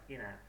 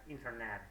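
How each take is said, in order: First: The word is said in a shortened form. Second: The word is said in full. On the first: "It's like the shortening" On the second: "Native English speakers, they would probably say like internet"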